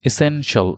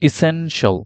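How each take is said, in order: First: The ending is pronounced as 'shl'. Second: The same.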